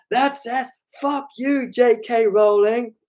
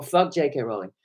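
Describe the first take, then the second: First: High, drawn-out raised voice; high-pitched retold shout; shouting over music. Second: Said in the usual way. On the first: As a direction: re-enact straining to be heard over loud music. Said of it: "I really had to shout over the music".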